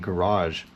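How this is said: It is said in an American accent. "now that I'm older, I say garage"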